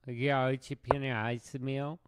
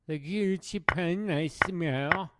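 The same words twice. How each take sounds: First: Said in the usual way. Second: "Giochi Pianissimo" said higher, in a hammed-up French accent; mock French accent. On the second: Naming the chess opening in a mock French accent. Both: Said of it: "That's how French people talk".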